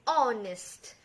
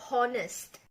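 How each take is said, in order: First: The word begins with a vowel, h silent. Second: The word begins with an audible h sound. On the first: The speaker calls it right. "adalah berbunyi honest ... H di sini adalah silent" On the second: The speaker calls it wrong. "tidak disebut honest"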